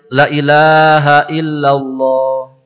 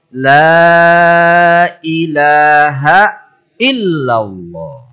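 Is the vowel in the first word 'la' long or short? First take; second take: short; long. First: The first 'la' has a short vowel. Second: The first 'la' has a long, drawn-out vowel. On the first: The speaker calls it wrong. "Boleh ditegur" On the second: The speaker calls it right. "Tu lam mesti panjang"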